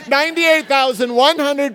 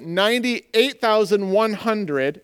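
First: The number is said firmly, with confidence. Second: The number is said hesitantly, without confidence. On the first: The speaker presents the figure as certain. "Then I'm going to say it with more confidence" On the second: The speaker is not sure the figure is correct. "am I right?"

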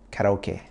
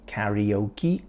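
First: The word is said with a Japanese pronunciation. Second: The word is said with an English pronunciation. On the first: "In Japan, you say karaoke" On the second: "In England, we say karaoke"

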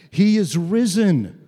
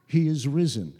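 First: It is said loudly, as if to everyone. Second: It is said softly, as if to oneself.

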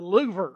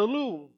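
First: The name is said with an American Texan pronunciation. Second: The name is said with a French-style pronunciation. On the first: The speaker calls it wrong. "being an American from Texas, I call it the Louver" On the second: The speaker calls it right. "and no, that's the Louvre"

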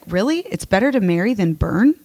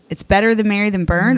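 First: It is said in a sarcastic tone. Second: It is said in a sincere tone.

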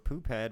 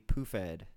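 First: A p sound is followed by an h sound. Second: The p and h merge into an f sound.

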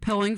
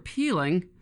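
First: The first vowel is a short 'i' sound. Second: The first vowel is a long 'ee' sound.

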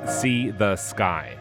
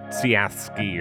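First: The name is said as three separate words. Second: The name is said as one run-together word. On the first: The speaker calls it right. "this artist's name is pronounced See the Sky" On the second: The speaker calls it wrong. "I was saying Siaski or something before, which I don't think is right"

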